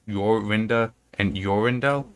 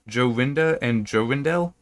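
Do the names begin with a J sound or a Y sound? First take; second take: Y sound; J sound. First: The names begin with a Y sound. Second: The names begin with a J sound. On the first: "It might be soft" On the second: "I'm pronouncing the J hard"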